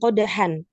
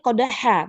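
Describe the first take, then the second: First: The word ends in a nasal -an. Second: The word ends in a long open a. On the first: The speaker calls it wrong. "bukan qodahan" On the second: The speaker calls it right. "Kita bacanya qodha"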